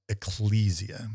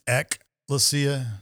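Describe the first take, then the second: First: It is said with the Latin pronunciation. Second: It is said with the Greek pronunciation. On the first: It refers to the Latinized form of the word. "if you're talking about the Latin, it's ecclesia" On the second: It refers to the original Greek word. "if you're talking about the Greek version, it's ekklesia"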